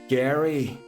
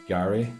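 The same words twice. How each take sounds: First: It is said in an imitated American accent. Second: It is said in the speaker's own accent. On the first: "Let me channel my inner American" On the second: "where I'm from, we call it Gary"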